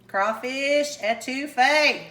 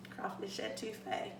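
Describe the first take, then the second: First: Slow, savored presentation; drawn-out dish announcement. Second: Very soft, low near-whisper; hushed repeat. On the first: Cook presents crawfish etouffee to viewers, drawn-out announcement. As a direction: announce the dish, stretching each word. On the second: Cook savors the dish name, hushed. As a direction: murmur the dish name under the breath. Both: Real, not acted.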